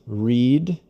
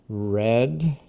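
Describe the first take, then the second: First: It is said as the present-tense form. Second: It is said as the past-tense form. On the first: The action happens now or habitually. "the pronunciation is read in the present" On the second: The action happened in the past. "read in the simple past"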